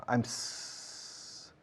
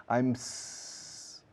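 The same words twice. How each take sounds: No difference in how they are said.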